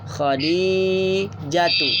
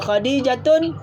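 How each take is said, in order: First: The name ends on a vowel without n. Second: The name ends with an added n sound. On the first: The speaker calls it right. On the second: The speaker calls it wrong.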